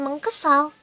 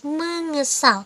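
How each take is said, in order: First: A k sound is kept after meng. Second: The k sound is merged into meng. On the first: The speaker calls it wrong. "yang betul itu bukan mengkesal" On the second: The speaker calls it right. "tapi mengesal"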